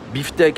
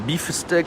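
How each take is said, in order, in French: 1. Il est prononcé avec des sons français. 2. Il est prononcé avec des sons anglais.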